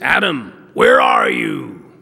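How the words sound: It is said in an angry tone. The speaker is mad at the listener. The speaker calls it wrong. "If you read it with anger and you say this"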